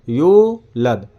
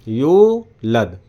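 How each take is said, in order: No difference in how they are said.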